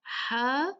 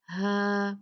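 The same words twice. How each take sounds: First: Long "हा" squeezed from mid-throat; strong throaty h in "हा"; pharyngeal haa. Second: Long "हा" with a plain h from the bottom of the throat; plain glottal h in "हा"; deep-throat haa. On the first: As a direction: constrict the throat on "हा". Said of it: "इस हा में आपको गले से निकालना". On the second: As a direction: let "हा" out open, without squeezing. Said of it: "last वाला जो अक्सल". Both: Shown as a demonstration.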